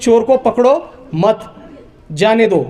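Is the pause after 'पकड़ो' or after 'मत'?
after मत. The pause comes after 'मत'.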